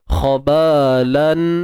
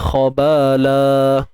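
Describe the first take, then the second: First: The word ends with an n sound. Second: The word ends with a long vowel. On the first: "Bunyi tanwin" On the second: "jadi bunyi mad, dua harakat"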